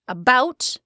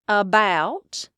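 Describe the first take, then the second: First: It is said in a plain standard accent. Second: It is said in an Appalachian-style accent. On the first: "about becomes about" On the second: "about becomes about. That's terrible, I'm sorry"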